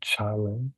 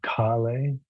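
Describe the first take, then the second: First: The word begins with a ch sound. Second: The word begins with a hard k sound. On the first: The speaker calls it right. "the C is a C H sound" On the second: The speaker calls it wrong. "instead of Kale"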